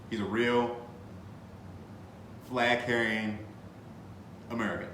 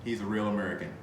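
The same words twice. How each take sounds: First: He's a real, pause, flag-carrying, pause, American, each piece set apart; spaced-out build with flag-carrying held up; stress on flag-carrying. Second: Said in the usual way. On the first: Shown as a demonstration. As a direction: pause before American to land the joke.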